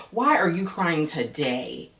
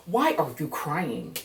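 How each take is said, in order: First: Slow, drawn-out disbelieving question; exasperated why again. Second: Exasperated why. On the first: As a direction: ask it slowly in disbelief. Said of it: "the other day was because". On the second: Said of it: "ain't no fucking way". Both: Real, not acted.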